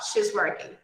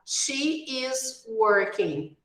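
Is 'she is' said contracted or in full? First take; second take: contracted; full. First: She and is are merged into one short syllable. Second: She and is are said as two full words. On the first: "vamos falar" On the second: "Em vez de falar"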